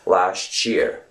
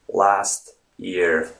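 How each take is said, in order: First: The words blend with a 'ch' sound between them. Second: Both words are said separately, with no linking sound. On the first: "It's as if there's a T C H sound in between" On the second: "you can obviously say last year"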